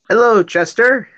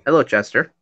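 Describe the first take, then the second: First: It is said loudly and animated. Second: It is said quietly and calmly.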